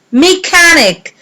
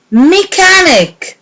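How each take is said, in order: Both takes have the same delivery.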